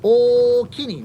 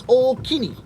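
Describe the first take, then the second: First: Slow, louder Okini, stretched out; slow Osaka thanks. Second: Okini said high with a falling tune; Osaka thank you. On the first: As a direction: draw out Okini carefully. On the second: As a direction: say okini rising then falling. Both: Shown as a demonstration.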